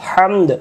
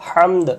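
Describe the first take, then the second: No difference in how they are said.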